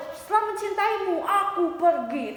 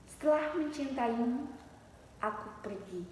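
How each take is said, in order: First: Hammed-up, high, declaimed recital; over-act the line, starting high and drawing out the end; overdone poetry reading. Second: Model poetry reading. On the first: Teacher mocking over-dramatic recital for students, exaggerated. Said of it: "tapi berlebihan". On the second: Teacher modelling for students how to recite, restrained and soft. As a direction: breathe the line out gently, pausing before the end. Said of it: "Kemudian misalkan maju ya". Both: Shown as a demonstration.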